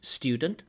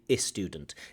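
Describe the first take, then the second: First: It starts directly with the s sound. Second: An extra vowel comes before the s sound. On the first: "instead of saying student" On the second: "they often say I student"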